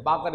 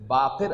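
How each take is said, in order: First: باقر said as "baakar", with no vowel before the r; casual wrong "baakar" for باقر; باقر as "baakar", the everyday slip. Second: باقر said slowly as "baaqir", with a short i before the r; careful "baaqir" for باقر; باقر spoken deliberately as "baaqir"; correct pronunciation. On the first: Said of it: "یہ غلط ہے". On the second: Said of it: "اصل تلفظ ہے". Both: Shown as a demonstration.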